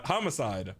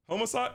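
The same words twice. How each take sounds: First: "Homicide" as HAH-muh-side, low and falling; open-vowel pronunciation. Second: "Homicide" as HOH-muh-side, high and rising; long-o pronunciation. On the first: Streamer testing pronunciations, "Homicide" as falling HAH-muh-side. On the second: Streamer testing pronunciations, "Homicide" as questioning HOH-muh-side. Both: Shown as a demonstration. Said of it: "still don't know how to say it".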